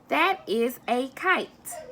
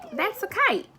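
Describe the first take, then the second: First: It is said slowly and carefully. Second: It is said at a quicker, natural pace.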